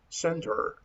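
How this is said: It is said in an American accent. "Probably Americans pronounce center"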